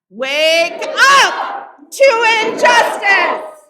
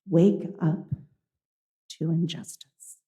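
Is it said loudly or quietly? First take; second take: loudly; quietly. First: It is said loudly. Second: It is said quietly.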